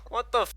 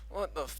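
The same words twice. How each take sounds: First: It is said louder. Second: It is said quietly.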